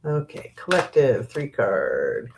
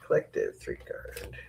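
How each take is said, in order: First: Said in the usual way. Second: Much softer murmured repeat under the breath; muttered to herself. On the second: Real, not acted. Reader murmurs the card name to herself, very soft. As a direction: quietly echo the card name to yourself.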